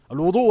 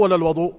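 First: الوضوء with a short "u" after the و: al-wuḍū'; first syllable of الوضوء pronounced "wu"; damma on the waw. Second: الوضوء with a short "a" after the و: al-waḍū'; first syllable of الوضوء pronounced "wa"; fatha on the waw. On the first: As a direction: say الوضوء as al-WU-ḍū', rounded first vowel. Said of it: "بضم الواو". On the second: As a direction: say الوضوء as al-WA-ḍū', open first vowel. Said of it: "قلنا بالواو ما معناه". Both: Shown as a demonstration.

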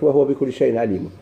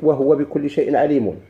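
First: "وهو" said wah-wa, no vowel after the h; measured verse, "وهو" in two syllables; silent h vowel. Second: "وهو" said wa-huwa, with u after the h; measured verse, "وهو" in three syllables; full vowel. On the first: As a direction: close "وهو" on the h, then wa. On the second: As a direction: voice the h of "وهو" with a short u. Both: Shown as a demonstration. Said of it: "يجوز يتسكن".

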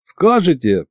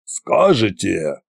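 First: Higher-pitched, eager prompt; lightly raised voice offering a hint; helpful prompting. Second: Slow, deliberate correction; measured, authoritative restart; correcting. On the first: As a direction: chime in with a suggestion. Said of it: "подсказал я". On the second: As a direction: take over firmly as the tsar. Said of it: "поправил Кощей". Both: A narrator's reading.

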